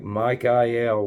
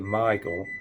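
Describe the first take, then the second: First: The name is said in a non-English way. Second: The name is said the common English way.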